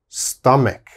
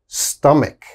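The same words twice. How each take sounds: First: The middle consonant is a k sound. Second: The middle consonant is a k sound.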